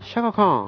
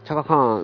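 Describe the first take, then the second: First: The name begins with an 'sh' sound. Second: The name begins with a 'ch' sound. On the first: The speaker calls it right. "シャカらしいね" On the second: The speaker calls it wrong. "チャカじゃなくて"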